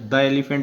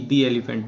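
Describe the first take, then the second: First: 'The' is said with a short 'thuh' vowel. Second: 'The' is said with a long 'thee' vowel. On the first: The speaker calls it wrong. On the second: The speaker calls it right.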